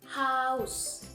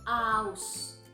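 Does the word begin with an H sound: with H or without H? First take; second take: with H; without H. First: The word begins with an audible H sound. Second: The word begins directly with the vowel.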